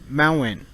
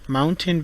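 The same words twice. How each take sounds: First: The t is stopped, followed by a strong n. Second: The t is fully released before the n.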